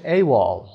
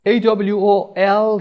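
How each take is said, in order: First: اِی وال as one word, "ay-wall". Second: اِی دبلیو او اِل as separate letters, higher and louder; spelled out. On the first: Teacher showing learners the acronym read as one word. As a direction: blend the letters into اِی وال. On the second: Teacher introducing the next acronym, spelled out. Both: Shown as a demonstration.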